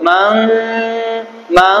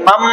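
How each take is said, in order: First: মাং with a slightly hidden nasal, held long; ikhfa, then ghunna. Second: মাম closed straight onto a held m hum; direct ghunna. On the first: Teacher contrasting with direct ghunna, মাং with slight ikhfa then held hum. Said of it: "আগে অল্প ইকফা করবো". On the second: Teacher showing students direct ghunna, মাম held on a closed m. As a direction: shut the lips at once on মাম and hum. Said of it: "এটা হবে direct গুন্না". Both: Shown as a demonstration.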